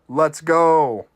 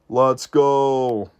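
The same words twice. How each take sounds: First: It is said in the speaker's ordinary voice. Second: It is said in a deep, put-on voice.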